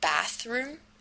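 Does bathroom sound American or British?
American. It is said in an American accent. The speaker comes from America. "as they do it in America"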